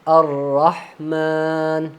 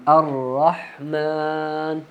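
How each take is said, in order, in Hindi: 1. म के बाद वाली मात्रा लंबी खींची जाती है। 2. म के बाद वाली मात्रा लंबी खींची जाती है।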